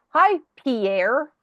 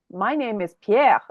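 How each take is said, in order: First: Pierre with a hard English R at the end; higher, rising greeting, English-sounding Pierre; anglicised Pierre. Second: Pierre the French way, ending without a hard R. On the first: Canadian greeting a French person, Pierre with English R. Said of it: "and you go". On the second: French person introducing himself, Pierre pronounced in French. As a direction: say Pierre with French vowels, final R barely there. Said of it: "If a French person says". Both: Retold or imitated.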